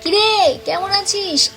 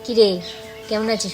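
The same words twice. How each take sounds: First: It is said loudly, as a call. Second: It is said softly, in a conversational voice. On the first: The speaker calls it right. "এইভাবে বলতে হয়" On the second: The speaker calls it wrong. "এটা আমি তো বলতে পারি না"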